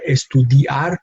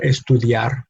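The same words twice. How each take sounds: First: "estudiar" with i and a split into two syllables; "estudiar" in four syllables, di and ar apart; wrong syllable split. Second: "estudiar" with i and a glided into one syllable; "estudiar" in three syllables, diar run together; correct diphthong. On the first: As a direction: say "estudiar" as es-tu-di-ar, breaking the diphthong. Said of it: "not estudiar, but estudiar". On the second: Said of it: "put them in the same syllable". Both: Shown as a demonstration.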